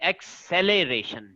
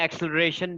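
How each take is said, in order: First: Every syllable is said fully and carefully. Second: It is said quickly with syllables squeezed together. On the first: "pronunciation इसकी सही है" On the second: "हम जल्दी में एक्सेलरेशन भी कह देते हैं"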